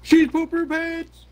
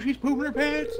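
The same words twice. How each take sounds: First: Much higher and louder stubborn yell; loud insisting. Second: Much higher gleeful squeal; excited. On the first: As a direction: shout it back to win the argument. Insisting against denial. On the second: Gleeful game commentary. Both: Real, not acted.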